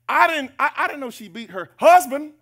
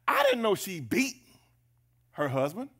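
First: The word husband is stressed. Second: The word beat is stressed. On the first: The surprise is who she hits. "Well, who else? Husband? If she beat her kids?" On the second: The surprise is that she hits him. "Emphasis on beat"

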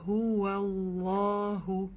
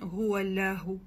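First: The L is hard, dark and doubled. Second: The L is soft and light. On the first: The speaker calls it right. "тогда лям твердая" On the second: The speaker calls it wrong. "не говорим гуаляху"

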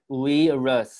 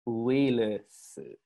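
First: It is said with English v and r sounds. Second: It is said as four Japanese syllables, u-i-ru-su. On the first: The speaker calls it wrong. "So don't pronounce it like virus" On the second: The speaker calls it right.

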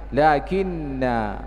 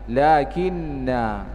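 Both takes have the same delivery.

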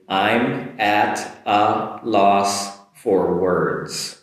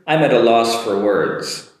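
First: The sentence is said slowly. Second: The sentence is said quickly. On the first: "One more time slowly" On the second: "And a little quicker"

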